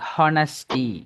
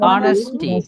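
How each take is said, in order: First: The word begins with a pronounced h sound. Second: The word begins directly with a vowel sound. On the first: The speaker calls it wrong. "அந்த எச் சவுண்டை அழுத்தி ஹானஸ்டி அப்படி pronounce பண்றாங்க. That's wrong" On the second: The speaker calls it right. "எச் sound வந்து silent"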